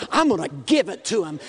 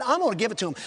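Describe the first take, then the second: First: Faster, shouted resolve; rising shout. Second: Said in the usual way. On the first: Real, not acted. Preacher vowing to preach the gospel, shouted fast. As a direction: fire it out as a battle cry. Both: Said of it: "I started preaching".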